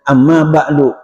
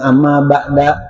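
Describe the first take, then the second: First: The last word ends with a 'u' vowel. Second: The last word ends with an 'a' vowel. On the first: The speaker calls it right. "di didomahkan tuh" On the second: The speaker calls it wrong. "Enggak ada yang amma ba'da"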